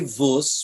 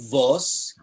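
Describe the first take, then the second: First: The word is said in a Polish Galician accent. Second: The word is said in a Litvak accent.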